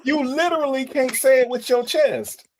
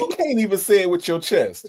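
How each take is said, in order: First: Higher, emphatic teasing jab; heightened teasing. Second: Teasing, falling away at the end; teasing jab. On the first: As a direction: push the tease up high. Host repeats the tease, heightened. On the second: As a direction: needle the guest playfully. Host teases guest's chest remark. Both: Real, not acted.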